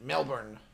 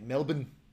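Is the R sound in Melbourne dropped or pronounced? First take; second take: pronounced; dropped. First: It is said the American way, with the R. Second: It is said the local way, without the R. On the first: The speaker sounds like a foreigner. "as an American, I proudly pronounce it Melbourne" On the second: The speaker sounds like a local. "if you want to sound like a local, they all say Melbourne"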